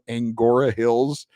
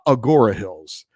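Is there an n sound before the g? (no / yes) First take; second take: yes; no. First: An n sound comes before the g. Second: No n sound comes before the g. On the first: The speaker calls it wrong. "I'm pronouncing the name of that that place wrong" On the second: The speaker calls it right. "There's no N in there"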